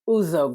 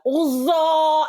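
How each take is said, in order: First: The name is said quickly and plainly. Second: The name is stretched out, like his mom.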